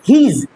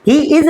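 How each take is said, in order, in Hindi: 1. दोनों शब्द मिलकर एक ही अक्षर में बोले जाते हैं। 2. दोनों शब्द अलग-अलग और पूरे बोले जाते हैं। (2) "ही इज नहीं"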